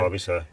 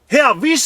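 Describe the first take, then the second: First: It is said flatly, without emotion. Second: It is said with lively excitement.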